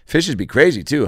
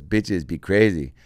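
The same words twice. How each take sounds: First: Said in the usual way. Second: Slow echo with "Bitches" for fishes; mispronounced fishes. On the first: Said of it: "And I go". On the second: Retold or imitated. Imitating him echoing the script, mispronouncing fishes as "Bitches". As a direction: repeat it slowly, saying "Bitches" for fishes. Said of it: "it's coming out as bitches".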